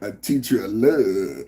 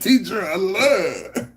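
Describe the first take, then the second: First: It is said in a put-on cartoon voice. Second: It is read in the speaker's ordinary voice.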